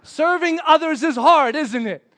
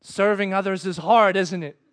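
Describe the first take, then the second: First: Louder, higher, slow teasing remark; big, drawn-out knowing voice; God's audible voice. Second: Lightly voiced God, matter-of-fact; understated voice from above; God's audible voice. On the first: Retold or imitated. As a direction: proclaim it slowly, then ease off. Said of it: "Just like that". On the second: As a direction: state it as a knowing remark. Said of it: "almost in an audible voice".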